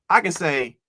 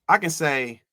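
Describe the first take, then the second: Both takes have the same delivery.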